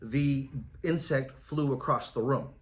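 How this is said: It is said flatly, with little emotion.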